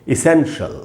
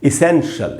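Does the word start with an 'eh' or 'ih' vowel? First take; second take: ih; ih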